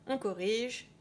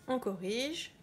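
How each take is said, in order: No difference in how they are said.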